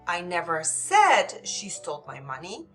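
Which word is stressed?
said. The stress falls on the word said. It was implied but not said outright. "Maybe they implied it, but I didn't say it, it uh, outright"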